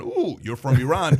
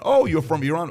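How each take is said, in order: First: Lightly acted second thoughts, less high and questioning; mock wariness. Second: Lightly acted high, rising friendly question; casual surprise. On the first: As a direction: lead with a drawn "ooh", mildly uneasy. Same reply repeated, now wary. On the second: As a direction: act pleasantly curious, lifting the end. Acted friendly reply, then wary repeat.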